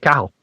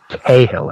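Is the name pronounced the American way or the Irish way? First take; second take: Irish; American. First: The name is said the Irish way. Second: The name is said the American way. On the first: This is how an Irish person would say the name. "because I'm Irish, so I would say Cahill" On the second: This is how the artist says his own name. "I believe it's pronounced"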